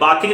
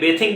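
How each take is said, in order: First: The first vowel is an open 'ah' sound. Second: The first vowel is an 'ay' sound. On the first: The speaker calls it wrong. "फिर बाथिंग नहीं बोलेंगे" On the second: The speaker calls it right. "बेथिंग बोलेंगे"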